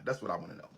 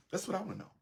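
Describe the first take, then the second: First: Low, dropped; low muttered aside. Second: Pitched high, pressing the question; high insistent repeat. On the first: Speaker questioning the audience, low and dropped. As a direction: say it low, to yourself. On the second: Speaker pressing the audience for an answer, high and insistent. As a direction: throw it up high, demanding an answer. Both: Real, not acted.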